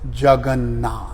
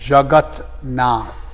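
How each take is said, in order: First: An n sound comes before 'nath'. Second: A t sound comes before 'nath'. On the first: This is the contracted form that is easier to say. "the T softens to an N, and it becomes Jagannath" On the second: This is the full original form meaning Lord of the world. "Jagat-nath, the Lord of the world"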